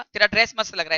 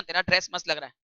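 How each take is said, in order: First: "तेरा dress मस्त" said as an honest, friendly compliment; mean it, sincerely praise her dress; genuine compliment. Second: "तेरा dress मस्त" lower and softer, dry and mocking; sarcastic compliment. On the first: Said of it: "आपने genuinely अच्छा बोला था". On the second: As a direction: say the praise so it means the opposite. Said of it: "what is sarcasm". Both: Shown as a demonstration.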